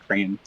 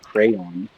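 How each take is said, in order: First: It is said with a Midwestern accent. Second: It is said with a Southern drawl. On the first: "a Midwesterner accent where you say crayon" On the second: "my southern drawl coming through where I have to say crayon"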